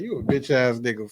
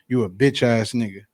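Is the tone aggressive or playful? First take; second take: playful; aggressive. First: It is said in a laughing, joking tone. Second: It is said in a confrontational, hostile tone. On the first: It is meant as friendly teasing. "if we laughing at Joker and I was like" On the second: It is meant as a real insult. "puff my chest out at Greg and say"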